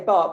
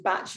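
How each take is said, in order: First: The name ends with a k sound. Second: The name ends with a ch sound. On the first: The speaker calls it wrong. "people say bark" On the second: The speaker calls it right. "but it's actually batch"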